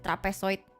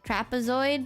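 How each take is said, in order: First: It is said with an Indonesian accent. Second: It is said with an English accent. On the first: "if I want to Indonesianify it, I go like" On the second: "is that how you pronounce it in English?"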